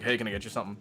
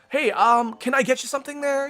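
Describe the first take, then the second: First: It sounds commanding and uncaring. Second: It sounds bright and friendly, like customer service.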